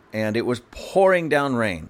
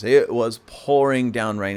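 First: Said in the usual way. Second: Slow, each word pressed, "pouring down rain"; emphatic repeat. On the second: Acted. Stressing to the listener how hard it rained, slow and emphatic. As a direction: lean into "pouring" slowly.

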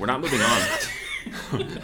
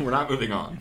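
First: Slow laughing insistence. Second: Said in the usual way. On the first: Real, not acted.

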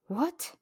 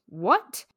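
First: Stunned what. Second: A louder, rising what; finally said it. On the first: Stunned first reaction to proposal. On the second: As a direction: let the what burst out at last. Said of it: "And then finally she said it". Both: A narrator's reading.

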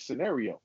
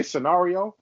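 First: Said in the usual way. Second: "scenario" with an AH in the middle; mimicked mispronunciation. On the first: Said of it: "It's scenario". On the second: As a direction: say "scenario" as sce-NAH-rio, questioning it. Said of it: "did you say scenario? It's scenario".

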